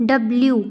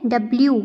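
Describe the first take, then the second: Both takes have the same delivery.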